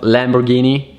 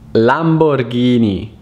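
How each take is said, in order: First: The name is said with an American English pronunciation. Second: The name is said with an Italian pronunciation. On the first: The speaker calls it wrong. "It's not Lamborghini" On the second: The speaker calls it right. "it's Lamborghini"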